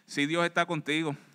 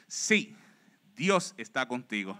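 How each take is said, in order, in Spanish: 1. No hay pausa después de la primera palabra. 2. Una primera palabra acentuada, luego una pausa. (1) "lo podemos leer sin la coma" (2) "es sí, Dios está contigo"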